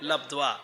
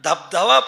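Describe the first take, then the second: First: The word begins with an 'l' sound. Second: The word begins with a 'd' sound. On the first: The speaker calls it right. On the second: The speaker calls it wrong. "अरे धबधबा नाही"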